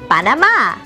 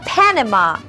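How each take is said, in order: First: The stress is on the last syllable. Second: The stress is not on the last syllable.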